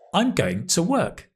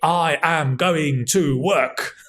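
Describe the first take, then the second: First: 'I am' is contracted into one syllable. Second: 'I am' is said as two full words. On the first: It is what people actually say. The speaker calls it right. "I am will become I'm" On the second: It sounds formal and old-fashioned. The speaker calls it wrong. "probably only a Roman emperor would say"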